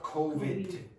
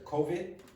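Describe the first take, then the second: First: The final d sound is clearly pronounced. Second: The final d sound is weak or dropped. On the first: The speaker calls it right. "not COVID" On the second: The speaker calls it wrong. "If you listen to Belen, she says COVID"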